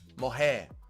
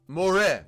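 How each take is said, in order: First: The R is said like an H. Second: The R is said like an English R. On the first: The speaker calls it right. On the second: The speaker calls it wrong.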